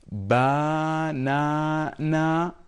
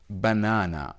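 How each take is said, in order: First: The unstressed vowel is said full, not reduced. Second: The unstressed vowel is reduced to a schwa. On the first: The speaker calls it wrong. "do we say banana? No, of course" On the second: The speaker calls it right. "So this A is reduced"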